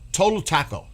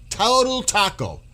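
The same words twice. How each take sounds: First: Said in the usual way. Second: "Total" punched higher, said slowly; mocking insult hammered home; emphatic repeat. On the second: Shown as a demonstration. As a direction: lean hard on "Total taco". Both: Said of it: "repeated with force".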